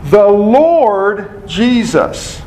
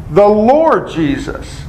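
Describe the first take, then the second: First: Slow, with Lord drawn out and leaned on; stress on Lord. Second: Said in the usual way. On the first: Shown as a demonstration. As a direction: dwell on the word Lord. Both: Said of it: "What's Lord emphasize?".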